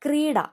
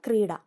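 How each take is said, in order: First: Krida pitched higher, short and falling; announced word. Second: Said in the usual way. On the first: Shown as a demonstration. Teacher announcing the word to students, pitched up. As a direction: call out Krida on a raised note. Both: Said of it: "ആ ഡാ ഏതാന്ന് നോക്കണം".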